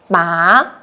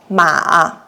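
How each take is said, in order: First: The pitch rises from mid to high. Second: The pitch dips low, then rises. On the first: "we use the second tone" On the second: "with the third tone"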